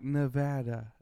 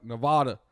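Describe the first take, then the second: First: "Nevada" with a short A, nuh-VAD-uh; neutral, careful "Nevada", vowel of cat; normal pronunciation. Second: Punched Texan "Nevada", nuh-VAH-duh; loud Texan take on "Nevada"; Texan pronunciation. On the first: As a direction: say "Nevada" evenly with VAD in the middle. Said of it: "somebody normal pronounce all the words". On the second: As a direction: say "Nevada" louder, Texan style, AH in the middle. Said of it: "a Texan comes in and pronounces it". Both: Retold or imitated.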